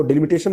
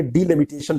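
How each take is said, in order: First: डिलिमिटेशन opening with a short "de-", run into "limitation"; wrong pronunciation. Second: डिलिमिटेशन opening with "dee-", then "limitation"; correct pronunciation. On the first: Teacher shows students how not to read it, wrong pronunciation. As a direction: say डिलिमिटेशन quickly as "deh-limitation". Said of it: "नहीं पढ़ेंगे". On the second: Teacher corrects the reading for students, correct pronunciation. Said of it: "पढ़ेंगे". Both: Shown as a demonstration.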